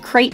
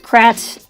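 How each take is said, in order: First: The vowel sounds like the one in 'crate'. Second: The vowel is short, like the one in 'cat'. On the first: This is the accepted pronunciation. "I understand that it's pronounced krayt dragon" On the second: This is the speaker's childhood pronunciation. "as a kid, always pronounced it Krat"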